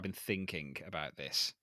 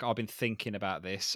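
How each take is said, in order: First: The word 'thinking' ends with a full 'ing'. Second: The word 'thinking' ends without the g sound. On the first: "I won't say I've been thinking about this" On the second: "I will drop my INGs"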